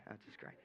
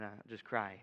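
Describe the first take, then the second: First: Much softer, mock pitiful; mock whimper. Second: Said in the usual way. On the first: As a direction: trail it off like a sad joke.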